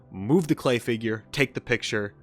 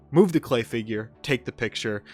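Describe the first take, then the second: No difference in how they are said.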